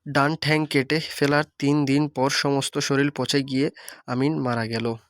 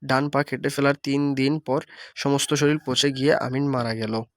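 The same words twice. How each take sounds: First: ঠ্যাং said in rural dialect; regional Bengali form. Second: Said in the usual way. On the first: Shown as a demonstration. Teacher demonstrating the dialect version to students, in regional Bengali. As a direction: read it in village Bengali, ঠ্যাং not পা. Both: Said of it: "ভাষারূপের আঞ্চলিক রূপ".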